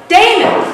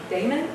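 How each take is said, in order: First: Loud, high-pitched yell. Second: Small, soft questioning call; very weak. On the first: Searcher hearing knocks behind him, yelling out to friend. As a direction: shout the name to reach someone far off. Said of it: "And I yelled out". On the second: Searcher finding nobody behind the door, very weakly calling. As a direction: call the name weakly, barely daring to ask. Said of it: "very weakly just said". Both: Retold or imitated.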